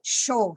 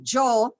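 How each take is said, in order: First: The word starts with a 'sh' sound. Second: The word starts with a 'y' sound. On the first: This is how Argentinian speakers say it. "they hear that says uh, show, show, show" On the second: This is how it is usually said in conversation. "the jaw that we always using in our conversation"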